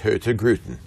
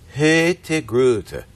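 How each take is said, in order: First: The r and final n are pronounced. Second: The r and final n are dropped. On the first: "in Oslo, it would be pronounced" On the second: "they drop the N and they drop the R"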